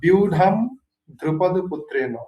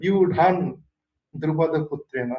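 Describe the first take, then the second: First: The word ends in an m sound. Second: The word ends in an n sound. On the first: "সেখানে আছে ধরেন আহ" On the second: "আবার কেউ উচ্চারণ করে"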